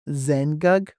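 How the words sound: The second vowel is reduced away. This is the Eastern dialect form. "Eastern style will be pronounced"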